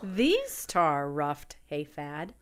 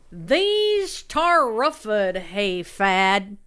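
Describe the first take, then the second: First: It is read in a normal accent. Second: It is read in a hick accent.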